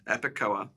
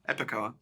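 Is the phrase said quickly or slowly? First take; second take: slowly; quickly. First: The two words are said slowly and separately. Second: The two words are said quickly, run together.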